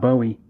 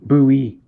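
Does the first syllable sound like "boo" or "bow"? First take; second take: bow; boo. First: The first syllable sounds like "bow". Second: The first syllable sounds like "boo". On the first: The speaker calls it wrong. "not not Bowie" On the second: The speaker calls it right. "the way you pronounce it is B O O B double O hyphen E E"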